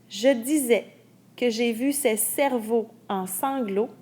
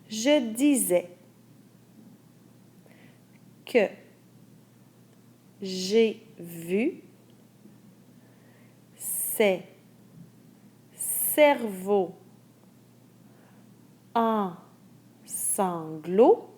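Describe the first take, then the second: First: The sentence is read at normal conversational speed. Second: The sentence is read slowly for dictation. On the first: "une première fois à vitesse normale" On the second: "une deuxième fois à vitesse dictée"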